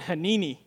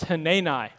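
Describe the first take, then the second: First: The name rhymes with panini. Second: The name does not rhyme with panini. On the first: The speaker calls it wrong. "I was saying Hanini, like panini" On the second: The speaker calls it right. "He said, it's Hanani"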